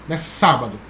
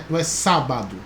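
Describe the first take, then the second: The two takes are said the same way.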